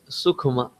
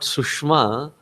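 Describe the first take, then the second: First: The middle consonant is a 'kh' sound. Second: The middle consonant is a 'sh' sound. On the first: The speaker calls it right. "it is Sukhma" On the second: The speaker calls it wrong. "here it is not Sushma"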